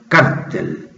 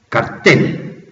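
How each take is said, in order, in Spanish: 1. El acento está en la primera sílaba. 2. El acento está en la última sílaba. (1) "cambian los acentos, los norteamericanos le empezaron a llamar cártel" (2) "yo todavía sigo pronunciando la antigua"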